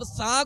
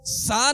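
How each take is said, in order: First: The consonant is soft, without a whistling hiss. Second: The consonant has a sharp, whistling hiss. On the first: The speaker calls it right. "सा को हम नर्म पढ़ेंगे" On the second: The speaker calls it wrong. "इसको सा नहीं पढ़ेंगे, सीटी की आवाज इस, इसमें पैदा नहीं होगी"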